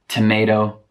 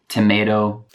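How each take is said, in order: The two takes are said the same way.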